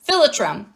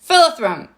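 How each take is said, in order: First: The word is said without any 'h' sound. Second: The word is said with an extra 'h' sound. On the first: The speaker calls it right. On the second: The speaker calls it wrong.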